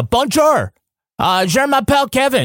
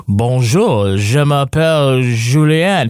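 First: Much higher, hammed-up Québécois French; mock French Canadian accent. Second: Slow, measured Paris French; mock the textbook Paris accent; imitating a Parisian speaker. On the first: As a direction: play up the Canadian twang. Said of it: "but in Canada, it's like". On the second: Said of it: "People think the French in Canada talk like they do in Paris".

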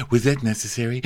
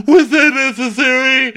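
First: Said in the usual way. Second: Much higher and louder; loud indignant repeat. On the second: Retold or imitated. Dorinda demanding of those left at the table, loud indignant. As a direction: blow up on the repeat. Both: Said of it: "Dorinda's like".

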